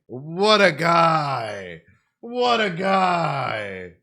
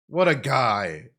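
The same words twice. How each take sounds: First: Very slow, loud stretched cheer; drawn-out shout. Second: Said in the usual way. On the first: Real, not acted. Streamer praising Monster Kid with a slow, loud, drawn-out shout. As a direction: stretch every word out in loud admiration.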